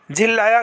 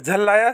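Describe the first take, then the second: First: झिल्लाया with a short i, jhil-laaya; झिल्लाया said wrongly with i; wrong pronunciation. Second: झल्लाया with a short a, jhal-laaya; झल्लाया said correctly with a; correct pronunciation. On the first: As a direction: say झिल्लाया with an i sound. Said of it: "गलत है". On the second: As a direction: say झल्लाया with an a sound. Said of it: "सही होगा". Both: Shown as a demonstration.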